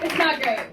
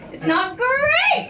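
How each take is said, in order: First: It is said in her normal voice. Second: It is said in a Tony the Tiger voice.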